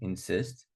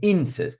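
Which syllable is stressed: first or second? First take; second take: second; first. First: The stress is on the second syllable. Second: The stress is on the first syllable. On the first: The speaker calls it right. "so far we're putting on the second" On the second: The speaker calls it wrong. "I'm not saying insist"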